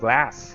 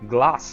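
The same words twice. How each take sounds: First: The word is said with an American accent. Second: The word is said with a British accent. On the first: "instead of" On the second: "mix American accents and British ones... I just like the sound of it"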